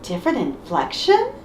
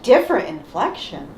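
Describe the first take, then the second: First: "inflection" lifted into a rising question. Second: "inflection" dropping to a close as a statement; falling inflection. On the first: Friends parodying repeated game lines, "inflection" rising as a question. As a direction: echo it, tipping "inflection" upward. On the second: Friends parodying repeated game lines, "inflection" falling flatly closed. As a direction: echo it, letting "inflection" fall. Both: Shown as a demonstration. Echoing the line in turns.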